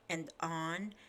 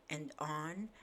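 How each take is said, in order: Both takes have the same delivery.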